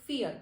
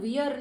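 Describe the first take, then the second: First: The word begins with an f sound. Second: The word begins with a v sound. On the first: The speaker calls it right. "હું શું કહીશ? ફિયર" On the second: The speaker calls it wrong. "આને હું વિયર નહીં કહું"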